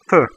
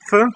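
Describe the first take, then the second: First: "t" with tongue tip pressed to upper teeth; soft Russian t. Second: Said in the usual way. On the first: Shown as a demonstration. Teacher drilling learners on "t", soft and dental. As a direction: make "t" dental, less explosive than English. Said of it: "press the tip of your tongue". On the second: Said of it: "like you want to pronounce".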